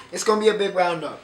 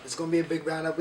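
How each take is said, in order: First: Louder, fast hyped-up host; loud hype. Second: Said in the usual way. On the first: Shown as a demonstration. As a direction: pump it up like an announcer.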